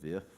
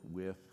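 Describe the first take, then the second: First: The word begins with a buzzing v sound. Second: The word begins with a rounded w sound. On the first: The speaker calls it wrong. "they would say vud, vith" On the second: The speaker calls it right. "they had trouble with the w sound"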